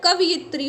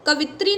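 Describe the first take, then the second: First: कवयित्री with an added 'yi', ka-vi-yi-tri; correct pronunciation. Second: कवित्री in three syllables, ka-vi-tri; wrong pronunciation. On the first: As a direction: sound the 'yi' inside कवयित्री. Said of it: "होता है". (कवयित्री में 'यि' साफ़ बोलें) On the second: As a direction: say कवित्री without the 'yi'. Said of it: "नहीं होता है". (कवित्री में 'यि' छोड़कर बोलें) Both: Shown as a demonstration.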